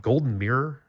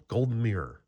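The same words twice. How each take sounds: First: "Golden Mirror" with a rising, questioning tune; unsure rising question. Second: "Golden Mirror" with a falling, settled tune; settled falling statement. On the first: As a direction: ask the name, unsure, voice going up on "Golden Mirror". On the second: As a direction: state the name as decided, voice dropping on "Golden Mirror". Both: Shown as a demonstration. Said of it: "is that what it's called?".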